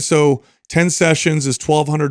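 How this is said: It sounds hesitant and apologetic. The speaker lacks confidence in the offer. The speaker calls it wrong. "They ask for money in an apologetic way"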